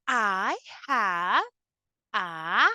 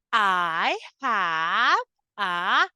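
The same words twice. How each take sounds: The two takes are said the same way.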